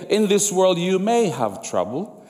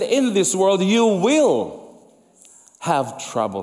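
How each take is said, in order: First: "may" lifted and leaned on; a rising "may" as the wrong version; stress on may. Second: Slow, heavy "will" falling firmly; drawn-out "will", then the rest sinks; stress on will. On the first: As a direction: land on "may", the hedge. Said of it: "He didn't say". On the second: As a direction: plant the word "will" like a promise. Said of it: "No, he said". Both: Shown as a demonstration.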